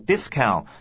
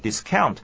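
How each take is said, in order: First: The stress is on the first syllable. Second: The stress is on the second syllable. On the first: The word is used as a noun. "念作名词的时候呢，重音在第一个音节" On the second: The word is used as a verb. "如果是念动词的话，重音就要移到后面的第二个音节"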